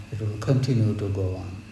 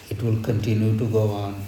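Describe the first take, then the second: No difference in how they are said.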